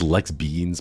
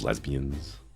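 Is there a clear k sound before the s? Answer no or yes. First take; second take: yes; no. First: It is said with a clear 'ks' sound. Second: It is said with no 'k' sound. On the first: "It's Lex Beans" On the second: "if you pronounce it lesbians"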